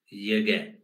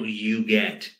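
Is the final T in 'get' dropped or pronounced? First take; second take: dropped; pronounced. First: The final T in get is dropped. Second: The final T in get is clearly pronounced. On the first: The speaker calls it right. "elision of the final T in get" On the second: The speaker calls it wrong. "So not you get"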